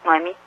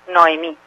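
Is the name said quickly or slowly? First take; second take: quickly; slowly. First: The name is said quickly, first vowel like u. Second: The name is said slowly and carefully. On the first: "si lo dice uno rápido, tal vez suena con U" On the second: "es como más lento"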